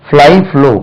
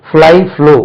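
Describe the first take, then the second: No difference in how they are said.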